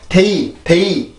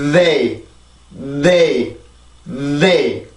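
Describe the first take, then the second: First: "they" as a hard Korean 테이, no TH lead-in; Korean-style hard D. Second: "they" with a long voiced TH before the vowel; English TH onset. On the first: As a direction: start "they" abruptly with a stop, skipping the voiced TH. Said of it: "이렇게 발음을 하지 말고요". ("they"를 앞소리 없이 "테이"로 딱딱하게) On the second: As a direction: let plenty of sound build in the TH, then rise into "they". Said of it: "소리가 많이 들어가 있어야 돼요". ("they"의 앞 자음 소리를 충분히 내는 발음) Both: Shown as a demonstration.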